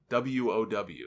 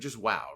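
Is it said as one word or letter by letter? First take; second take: letter by letter; one word. First: It is spelled out letter by letter. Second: It is said as a single word. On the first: The speaker calls it wrong. "That sounded weird. W O W. That's like me saying O M G" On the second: The speaker calls it right. "Just WOW, right?"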